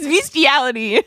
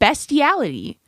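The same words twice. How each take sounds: First: The first syllable sounds like 'beast'. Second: The first syllable sounds like 'best'. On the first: The speaker calls it right. "Beast. Beast" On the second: The speaker calls it wrong. "He's ignoring the A. He's saying bestiality"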